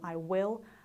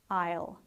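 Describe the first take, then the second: First: Both words are said in full, uncontracted. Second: The words are merged into one short syllable.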